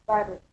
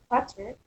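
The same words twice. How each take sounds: First: "butter" with the T turned towards a D; American flapped T. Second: Said in the usual way. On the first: Shown as a demonstration. Teacher demonstrating American accent, "butter" with D-like T. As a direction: say "butter" like "budder". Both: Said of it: "sound similar to the D between vowels".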